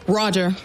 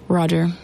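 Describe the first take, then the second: First: It sounds respectful and agreeable. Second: It sounds dismissive and annoyed.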